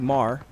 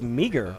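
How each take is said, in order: First: The name is said as one syllable. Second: The name is said with two syllables. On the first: The speaker calls it right. "It's actually Mar. That's how you say it" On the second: The speaker calls it wrong. "Looks like it's meager"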